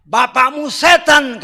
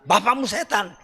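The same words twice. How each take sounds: First: "Bapakmu setan" slower, louder and higher, a harsh rebuke. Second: Said in the usual way. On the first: Shown as a demonstration. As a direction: hurl "Bapakmu setan" slowly and loudly like Yeshua's rebuke. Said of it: "kata Yeshua". ("Bapakmu setan" diucapkan lambat, keras, tinggi seperti teguran kasar) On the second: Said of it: "itu kasar".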